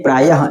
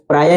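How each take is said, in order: First: प्रायः with the visarga breathed out; correct pronunciation. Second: प्राय without the final breath; प्राय cut short, no visarga; wrong pronunciation. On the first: (सही उच्चारण: विसर्ग के साथ प्रायः) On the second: (गलत उच्चारण: बिना विसर्ग के प्राय) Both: Shown as a demonstration. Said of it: "प्राय नहीं, प्रायः".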